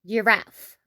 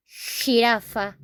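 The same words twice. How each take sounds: First: "giraffe" as juh-RAF; English pronunciation. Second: Slow "jirafa" as hee-RAH-fah; Spanish pronunciation. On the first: Teacher contrasting for learners, English "giraffe" as juh-RAF. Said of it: "in English it's". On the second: Teacher contrasting for learners, slow Spanish "jirafa" with h sound. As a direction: say "jirafa" slowly, J as a strong h. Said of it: "In Spanish". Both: Shown as a demonstration.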